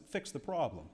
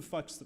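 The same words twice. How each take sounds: First: Said in the usual way. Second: "fix" slipped into "fucks"; slip of the tongue. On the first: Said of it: "I meant to say fix". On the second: Real, not acted. Speaker fumbling the award speech, "fix" mispronounced as "fucks". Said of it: "Did I say something differently?".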